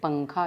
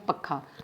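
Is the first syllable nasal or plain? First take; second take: nasal; plain. First: The first syllable has a nasal sound. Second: The first syllable has no nasal sound. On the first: The speaker calls it right. "अनुस्वार लगाया तो बोले पंखा, ये शुद्ध उच्चारण होता है" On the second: The speaker calls it wrong. "अगर इसके ऊपर से अनुस्वार हटा दिया जाए तो ... जो कि अशुद्ध उच्चारण है"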